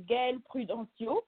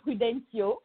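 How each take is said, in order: First: "Gail Prudencio" said in her own French way; correct name pronunciation. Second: "Prudencio" offered as the easier permitted version; accepted alternative pronunciation. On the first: Guest teaches host her name, correct pronunciation of "Gail Prudencio". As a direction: model "Gail Prudencio" as its owner says it. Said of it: "to correctly say your name". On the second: Guest lets host off, alternative pronunciation of "Prudencio". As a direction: give "Prudencio" as an acceptable other way. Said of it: "you can say Prudencio". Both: Shown as a demonstration.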